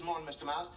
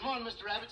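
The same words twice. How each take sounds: First: Answering greeting. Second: High, quick, chirpy hail; cheery mouse greeting. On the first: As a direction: answer the mouse in passing. Rabbit answers the mouse's greeting. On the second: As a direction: greet a neighbour as an excited little mouse. Happy mouse greeting everybody in story. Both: Acted.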